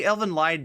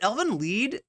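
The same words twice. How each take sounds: First: The name is said with an English pronunciation. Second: The name is said with a German pronunciation. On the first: "People say Elvin Lied though" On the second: "that's the German pronunciation"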